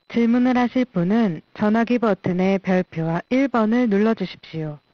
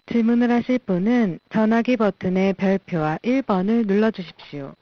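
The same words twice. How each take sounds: The two takes are said the same way.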